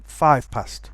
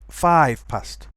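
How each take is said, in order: First: Five ends with a voiceless f sound. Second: Five ends with a voiced v sound.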